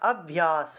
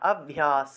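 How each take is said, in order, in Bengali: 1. শেষের ধ্বনিটি একটি দন্ত্য 's'। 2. শেষের ধ্বনিটি একটি দন্ত্য 's'।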